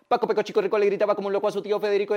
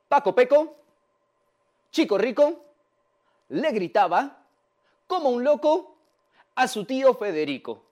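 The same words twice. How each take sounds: First: It is said extremely fast, without pauses. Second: It is said slowly, step by step.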